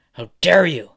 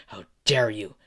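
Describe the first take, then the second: First: Higher, much louder angry outburst; furious shout. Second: Angry. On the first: Endeavor kicking Izuku for talking to his masterpiece, shouting in fury. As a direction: explode on the last demand. Last repeat, escalated to a shout. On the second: Villain repeats demand while kicking. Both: Acted.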